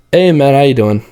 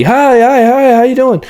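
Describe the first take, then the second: First: Said in the usual way. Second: High, loud, bubbly hi hi hi; overexcited greeting. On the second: Shown as a demonstration. Sales coach showing the wrong overexcited greeting to a calm client. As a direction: gush at them with far too much pep. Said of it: "If they're a lower tone person, you don't wanna be".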